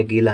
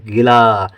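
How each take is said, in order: First: गीला with the ee of the first syllable long. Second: गिला with a brief i before a long laa; short i. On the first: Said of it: "लेकिन ये गीला नहीं है". (गीला में गी को लंबा) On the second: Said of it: "छोटी की मात्रा का उच्चारण कम देर". (गिला में छोटी इ) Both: Shown as a demonstration.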